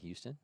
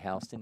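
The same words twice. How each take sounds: First: It is said the way Texans say it. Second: It is said the way Georgians say it.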